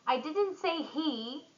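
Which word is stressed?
he. The stress falls on the word he. Someone else did it. "someone else"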